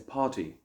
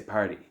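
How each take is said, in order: First: It is said in a British accent. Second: It is said in an American accent. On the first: "In the United Kingdom, they might say party" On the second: "In America, they might say party"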